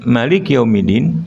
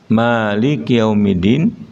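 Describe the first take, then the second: First: The first vowel of Maliki is kept short. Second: The first vowel of Maliki is held long. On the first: God is the king of the Day of Judgment. "Allah sebagai raja" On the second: God is the owner of the Day of Judgment. "Allah sebagai pemilik"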